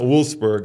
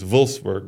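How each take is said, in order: First: The name begins with a W sound. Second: The name begins with a V sound. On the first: The speaker calls it wrong. "It's not Wolfsburg" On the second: The speaker calls it right. "It's Wolfsburg"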